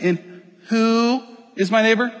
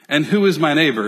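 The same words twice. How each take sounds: First: It is said in a snarky, mocking tone. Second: It is said in a plain, neutral tone.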